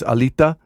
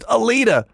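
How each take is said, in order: First: The T is made with tongue against teeth. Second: The T is a plain English T sound. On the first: "he kind of puts his tongue behind his teeth" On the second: "just Alita"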